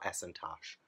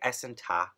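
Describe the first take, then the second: First: The name ends with a clear 'sh' sound. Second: The name ends without any 'sh' sound. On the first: The speaker calls it wrong. "so it's not Esentash, which doesn't sound. It doesn't sound that good" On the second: The speaker calls it right. "the sh is probably silent"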